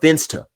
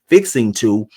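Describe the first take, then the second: First: The words are squeezed into one reduced word. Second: The two words are pronounced fully and separately. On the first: "I'm finsta" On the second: "instead of fixing to"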